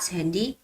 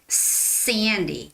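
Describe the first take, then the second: First: The first s has a weak, soft sound. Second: The first s has a strong hissing sound. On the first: The speaker calls it wrong. "not Sandy" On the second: The speaker calls it right. "really make like strong S sound, like Sandy"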